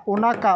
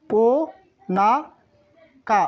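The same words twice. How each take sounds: First: Said in the usual way. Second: ও, না, কা as separate syllables with pauses; syllable-by-syllable pronunciation. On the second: Shown as a demonstration. Teacher repeats the word for belly for learners, syllable by syllable. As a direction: sound out ও না কা piece by piece. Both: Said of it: "আরেকবার উচ্চারণ করে দেই".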